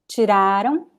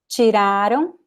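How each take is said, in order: The two takes are said the same way.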